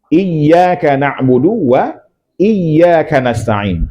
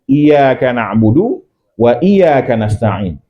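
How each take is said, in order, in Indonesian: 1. Y pada iyyaka dibaca rangkap. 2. Y pada iyyaka dibaca pendek dan tunggal. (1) "Tasydid yang ada pada pada ya" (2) "Langsung salah itu"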